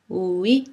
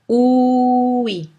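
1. Le mot est dit plus vite que lentement. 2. Le mot est étiré très lentement.

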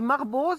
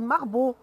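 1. Le son z final est prononcé à la fin. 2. Le mot se termine sans aucun son z. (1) "nous on dit Marbeau" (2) "ici ils disent Marbeau. Ils ne prononcent pas le Z"

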